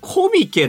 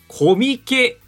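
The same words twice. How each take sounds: First: The pitch is high on the first syllable, then falls. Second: The pitch stays flat without a high first syllable. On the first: The speaker calls it right. "頭高なんだ" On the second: The speaker calls it wrong. "コミケじゃないんですよ皆さん"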